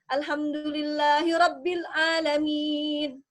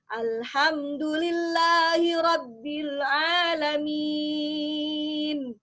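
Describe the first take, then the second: First: The l, n and m sounds stop short. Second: The l, n and m sounds flow smoothly. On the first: The speaker calls it wrong. "itu salah. Ya, karena ada sifat lam, sifat nun, sifat mim yang tidak diberikan" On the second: The speaker calls it right. "Harus mengalir"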